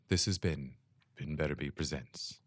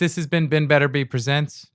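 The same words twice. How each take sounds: First: It is said in a put-on announcer voice. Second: It is said in his ordinary speaking voice.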